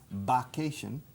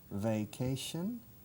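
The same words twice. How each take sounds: First: The word starts with a B sound. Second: The word starts with a buzzing V sound. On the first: The speaker calls it wrong. "con B en vez de V, vacation, y suena mal" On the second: The speaker calls it right. "que suene la V"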